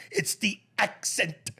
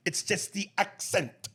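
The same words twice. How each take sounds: First: Imitating Trump, slow, punching "accent" higher; stress on accent. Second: Imitating Trump, slow, leaning hard on "accent"; stress on accent. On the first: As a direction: hit "accent" hard and slow, mocking. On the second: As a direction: drag out "accent" and punch it, mock Trump. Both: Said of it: "When he punches accent like that".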